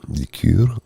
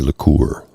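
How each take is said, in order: First: It is said with a Canadian pronunciation. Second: It is said with an American pronunciation.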